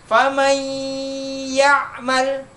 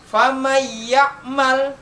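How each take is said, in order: First: The merged nasal sound is held long. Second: The merged nasal sound is cut short. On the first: The speaker calls it right. "ditahan dua harokat" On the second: The speaker calls it wrong. "udah dimasukkan akan tetapi tidak ditahan, berarti itu sah salah"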